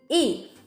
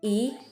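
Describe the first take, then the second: First: The pitch falls sharply from high to low. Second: The pitch rises from middle to high. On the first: The next syllable has the first, second, third or neutral tone. "it's pronounced as E with the fourth tone" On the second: The next syllable has the fourth tone. "it's pronounced as E with the second tone"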